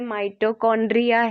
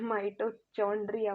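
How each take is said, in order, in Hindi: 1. बीच का व्यंजन 'k' जैसा सुनाई देता है। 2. बीच का व्यंजन 'ch' जैसा सुनाई देता है। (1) "ये माइटोकॉन्ड्रिया है, इट्स नॉट चौंड्रिया" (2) "माइटोचॉन्ड्रिया मत सोच लेना बच्चों"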